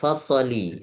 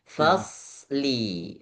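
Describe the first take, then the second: First: An extra vowel sound comes between s and l. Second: The s and l join with no vowel between. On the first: The speaker calls it wrong. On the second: The speaker calls it right.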